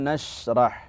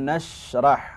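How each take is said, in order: No difference in how they are said.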